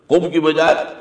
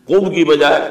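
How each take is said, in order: No difference in how they are said.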